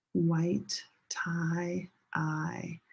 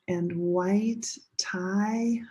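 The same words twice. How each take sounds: First: Whisper. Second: Said in the usual way. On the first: Shown as a demonstration. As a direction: drop to a whisper so they speak. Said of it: "second time say it together with me". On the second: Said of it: "first time listen".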